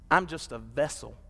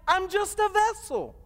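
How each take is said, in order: First: Said in the usual way. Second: Much higher, ringing preacher's cry on vessel; preached climax. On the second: Shown as a demonstration. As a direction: lift "I'm just a vessel" high and hold it.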